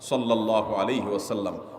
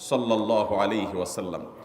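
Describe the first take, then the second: The two takes are said the same way.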